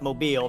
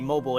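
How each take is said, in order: First: It is pronounced the way the city name is. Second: It is pronounced like the ordinary word mobile. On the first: It names the city. The speaker calls it right. "you call it Mobile" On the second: It describes something that can move. The speaker calls it wrong. "if you try to say mobile, it doesn't sound doesn't doesn't make any sense"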